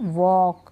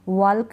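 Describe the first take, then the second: First: The L sound is silent. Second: The L sound is pronounced. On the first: The speaker calls it right. "नहीं वॉक" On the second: The speaker calls it wrong. "वॉल्क नहीं"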